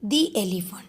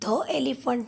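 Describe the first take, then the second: First: The word 'the' is said with a long 'thee'. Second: The word 'the' is said with a short 'thuh'. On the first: The speaker calls it right. "કારણ કે elephant જે છે એનો ઉચ્ચાર સ્વરથી થાય છે" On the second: The speaker calls it wrong. "ધ ધ elephant નહીં"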